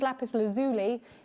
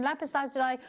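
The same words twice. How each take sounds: First: It is pronounced in an American way. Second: It is pronounced in a non-American way.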